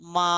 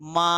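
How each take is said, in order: No difference in how they are said.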